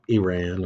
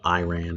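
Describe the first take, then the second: First: The word does not sound like 'I ran'. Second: The word sounds just like 'I ran'.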